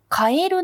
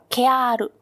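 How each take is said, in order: First: The word is said with standard vowels ka-e-ru. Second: The word is said with merged, lengthened vowels ke-aa-ru. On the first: "カエルなんですけど" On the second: "岡山や山口では"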